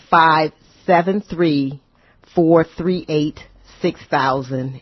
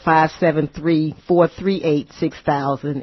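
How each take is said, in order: First: The number is said more slowly. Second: The number is said at normal speed.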